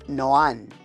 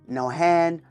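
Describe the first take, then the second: First: The name is said with no H sound. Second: The name is said with an H sound. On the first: The speaker calls it right. "with an accent over the letter A, which then silences the H" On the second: The speaker calls it wrong. "my name has always been mispronounced"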